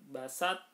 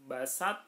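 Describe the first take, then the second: Both takes have the same delivery.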